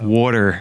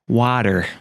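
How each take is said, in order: First: It is said with a Jersey accent vowel. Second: It is said with a general American vowel. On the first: "because it's like water" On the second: "If you pronounce it like normally, it's like water"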